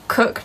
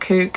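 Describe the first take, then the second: First: The vowel is a short oo sound. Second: The vowel is a long oo sound. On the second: "not kook"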